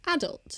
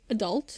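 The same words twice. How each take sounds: First: Adult stressed on the first syllable; British pronunciation. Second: Adult stressed on DULT; American pronunciation. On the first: Comparing what we say with theirs, British adult. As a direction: say AD-ult, British style. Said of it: "we would say adult". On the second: Comparing what they say with ours, American adult. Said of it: "they would say adult". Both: Shown as a demonstration.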